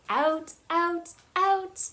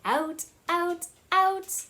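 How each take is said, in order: Both takes have the same delivery.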